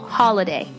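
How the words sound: It is said in an American accent.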